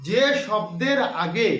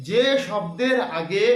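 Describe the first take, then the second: No difference in how they are said.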